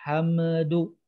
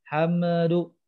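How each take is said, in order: The two takes are said the same way.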